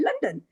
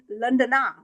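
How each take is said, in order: First: The word ends on the n, no final vowel. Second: The word ends with an added final a vowel. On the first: The speaker calls it right. "We say London" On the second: The speaker calls it wrong. "We don't say London, Londona"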